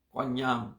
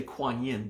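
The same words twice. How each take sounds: First: "Kuan Yam" in Mandarin sounds, not the English "Kuan Yin"; Chinese pronunciation. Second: Said in the usual way. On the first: Shown as a demonstration. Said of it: "forgive my Chinese accent". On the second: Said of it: "We don't say Kuan Yin".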